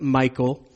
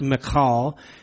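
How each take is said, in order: First: It is said like the English name Michael. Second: It is said with Hebrew vowels, unlike Michael. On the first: The speaker calls it wrong. "they'll pronounce it Michael" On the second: The speaker calls it right. "it actually is pronounced Michal"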